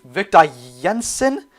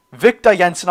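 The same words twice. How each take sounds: First: "Victor Jensen?" asked slowly with a rising, doubtful tune; unsure question. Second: Said in the usual way. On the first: Shown as a demonstration. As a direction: check the name aloud as you are not sure of it. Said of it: "Victor Jensen, I believe it is". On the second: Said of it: "I believe it is".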